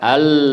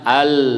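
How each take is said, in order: The two takes are said the same way.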